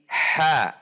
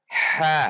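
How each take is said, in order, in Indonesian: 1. Huruf itu terdengar rileks dan tipis. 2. Huruf itu terdengar rileks dan tipis.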